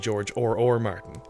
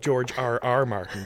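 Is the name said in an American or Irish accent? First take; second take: Irish; American. First: The letters R R sound like Irish 'or'. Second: The letters R R are said with American r-sounds. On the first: "Irish people, of course, we say George or Martin" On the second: "Americans would say RR"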